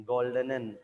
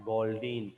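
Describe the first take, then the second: First: "Goldenen" with three syllables, ending in -en-en; corrected German word. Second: "Goldin" in two syllables, ending in -in; mistaken word. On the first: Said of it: "fourth word should read". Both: Acted.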